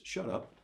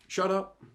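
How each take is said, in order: First: Quiet. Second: "Shut up" said higher and louder. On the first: Pastor quietly naming the first life hack, soft. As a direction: drop the voice on "shut up". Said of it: "first take of shut up". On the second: Pastor repeating the life hack to his church, loud and high. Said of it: "repeated louder". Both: Shown as a demonstration.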